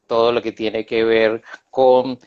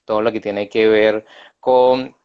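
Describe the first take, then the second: No difference in how they are said.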